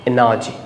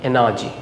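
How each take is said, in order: Both takes have the same delivery.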